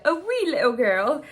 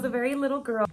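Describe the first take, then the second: First: Loud, playful mock-Irish accent. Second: Said in the usual way. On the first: Shown as a demonstration. Repeating her accidental slip, exaggerated Irish accent. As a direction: ham up the Irish accent, louder. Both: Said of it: "say that in Irish accent".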